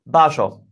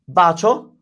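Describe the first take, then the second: First: The middle consonant is a sh sound. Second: The middle consonant is a ch sound.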